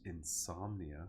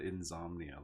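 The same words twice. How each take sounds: First: The consonant after 'in' sounds like s. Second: The consonant after 'in' sounds like z. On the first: The speaker calls it right. "with an S" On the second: The speaker calls it wrong. "like with a Z"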